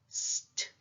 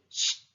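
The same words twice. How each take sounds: First: It starts with a plain s sound before t. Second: It starts with an sh sound before t. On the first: This is how it sounds in the middle or at the end of a word. "when it comes at the end of the word or at the middle of the word, then it pronounced as st" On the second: This is how it sounds at the start of a word. "St when comes at the beginning of the word, pronounced as s c h t"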